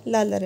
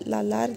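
First: The second vowel is short and quick. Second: The second vowel is drawn out long. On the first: The speaker calls it right. "ये लालर है" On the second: The speaker calls it wrong. "लालार नहीं है"

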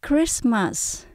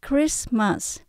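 No difference in how they are said.

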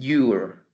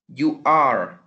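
First: It is said contracted into a single syllable. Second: It is said as two full, separate words. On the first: "la pronunciación cambia también" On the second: "estábamos pronunciándolo como... you are"

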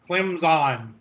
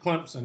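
First: No p sound is inserted after the m. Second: A p sound is inserted after the m. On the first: The speaker sounds like a national sports announcer. "you say Clemson, like the ESPN announcers" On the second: The speaker sounds like a local Southerner. "So I pronounce it Clemson with a P"

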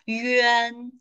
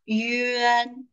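Both takes have the same delivery.

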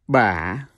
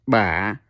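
First: The pitch dips down and then rises. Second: The same.

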